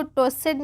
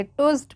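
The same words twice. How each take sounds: First: टोस्टेड in two syllables with a full "-ed"; wrong pronunciation. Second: टोस्ट as one syllable ending "-st"; correct pronunciation. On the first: Teacher warns learners off this reading, mispronounced as spelt. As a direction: sound out the ending of टोस्टेड. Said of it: "इसको टोस्टेड नहीं पढ़ेंगे". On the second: Teacher gives learners the right reading, correctly pronounced. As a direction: close टोस्ट without an "-ed" vowel. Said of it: "टोस्ट पढ़ेंगे". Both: Shown as a demonstration.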